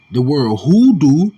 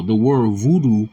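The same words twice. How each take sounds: First: "hoodoo" slower and louder, with a breathy H at the start. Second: "voodoo" said with a clear V sound at the start. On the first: Preacher showing the V swapped for H: "hoodoo" with a breathy H. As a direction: stretch out "hoodoo", landing on the H. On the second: Preacher contrasting words for listeners: "voodoo" with a V. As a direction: say "voodoo", leaning on the V. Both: Shown as a demonstration. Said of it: "just replaced the V with an H".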